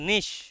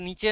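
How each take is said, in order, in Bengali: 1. শব্দটি 'sh' ধ্বনিতে শেষ হয়। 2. শব্দটি 'ch' ধ্বনিতে শেষ হয়। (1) "উচ্চারণটা নিশ" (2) "উচ্চারণটা নিচে নয়"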